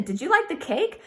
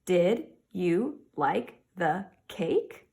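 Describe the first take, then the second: First: Higher, with a lift on like; cheerful teacher question with a rise; bright question. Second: Very slow, rising end on cake; slow model question with a final rise; slow question reading. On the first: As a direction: ask it lightly and brightly. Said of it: "Yes, I'm asking a question". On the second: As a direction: read it slowly with a lifting end. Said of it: "Am I asking a question". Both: Shown as a demonstration.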